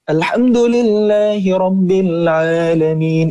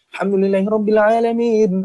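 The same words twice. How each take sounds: First: It is recited at a medium pace. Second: It is recited at a very fast pace. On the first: This is the middle tempo used when leading prayer. "Ini pertengahan ya, sedang bacaannya" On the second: This is the fast tempo used for memorization review. "Hadar ini bacaan yang cepat sekali"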